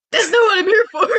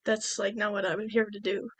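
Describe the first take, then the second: First: High, loud mock wail; hammed-up protest. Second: Soft, understated objection; mild retold refusal. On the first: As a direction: cry it out in exaggerated exasperation. Retold Padme refuses again, escalating. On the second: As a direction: object quietly, voice dropped. Retold Padme first refuses his offer.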